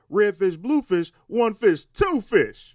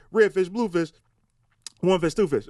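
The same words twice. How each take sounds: First: Bright, sing-song count with even punches; red fish blue fish one fish two fish, each fish hit high and loud; the way I told you. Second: Same count but flatter, stress dropped onto two fish; red fish blue fish one fish TWO fish, the last fish leaned on; the wrong delivery. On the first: Writer showing a comic how the line should land, sing-song and punchy. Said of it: "It's how I told you to say it". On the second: Writer mimicking a comic who missed the rhythm, flattened. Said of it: "But you say". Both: Shown as a demonstration.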